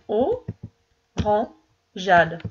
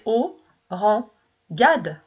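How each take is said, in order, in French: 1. Le g est doux, comme un j. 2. Le g est dur, comme dans go. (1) "si je veux entendre orangeade" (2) "ça fait O-ran-gade"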